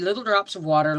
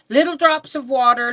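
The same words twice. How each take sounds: First: It is said in a normal adult voice. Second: It is said in a childish baby voice. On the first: This is how the verse really goes. The speaker calls it right. "that's supposed to be" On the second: A small child is reciting it. The speaker calls it wrong. "in his baby voice, and putting the emphasis on the wrong words"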